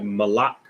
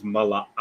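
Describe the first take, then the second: First: Malak run into two syllables, ma-LAK; run-together pronunciation. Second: Malak in three syllables, ma-la-AK; full pronunciation. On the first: Teacher showing how it sounds once comfortable, Malak run together. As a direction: blend Malak with no break before the k. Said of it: "it'll sound like". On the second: Teacher correcting to the real word, Malak with separated syllables. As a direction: break Malak before a separate final ak. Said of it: "But the word is". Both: Shown as a demonstration.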